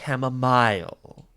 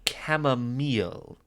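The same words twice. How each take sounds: First: Chamomile is said with a British pronunciation. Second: Chamomile is said with an American pronunciation. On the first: The speaker calls it wrong. "not chamomile. We're not British here" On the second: The speaker calls it right. "we're American"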